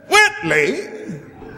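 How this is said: The pitch falls from high to low.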